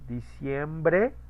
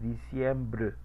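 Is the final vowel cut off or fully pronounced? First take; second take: fully pronounced; cut off. First: The final vowel is fully pronounced. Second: The final vowel is cut off, leaving air. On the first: "decir en español, por ejemplo" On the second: "a decir"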